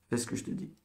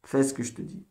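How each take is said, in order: First: Much softer, almost voiceless repeat; quiet, whispery command to a pupil; hushed insistence. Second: Said in the usual way. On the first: Real, not acted. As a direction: insist under your breath. Teacher repeats the order under breath.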